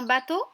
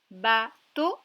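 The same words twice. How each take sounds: First: Said in the usual way. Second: "Bateau" loud, split ba, pause, to; syllable by syllable. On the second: Shown as a demonstration. Teacher repeats a word to locate the O, syllable by syllable. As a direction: break "Bateau" into two separate syllables. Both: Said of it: "dans la deuxième syllabe".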